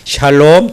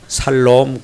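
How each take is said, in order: First: The word begins with an 'sh' sound. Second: The word begins with a plain 's' sound. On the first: The speaker calls it right. "샬롬 다시 해봅니다" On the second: The speaker calls it wrong. "또 발음 이상한 분이 계세요. 살롬 그런 분이 계시네요"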